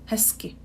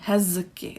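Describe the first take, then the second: First: A voiceless s sound comes before the k. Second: A voiced z sound comes before the k. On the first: The speaker calls it right. "we have the S K combination" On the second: The speaker calls it wrong. "It's not really easy to pronounce"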